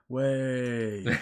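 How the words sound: The word is said quietly with little excitement. "than I did the three mil. I was like"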